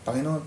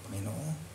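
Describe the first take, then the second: First: It sounds flat, careless and half-hearted. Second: It sounds sincere, earnest and heartfelt. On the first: The prayer is empty routine. The speaker calls it wrong. "passive prayer lang na parang palabas lang sa ilong" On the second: The prayer is truly meant. The speaker calls it right. "speak from the heart"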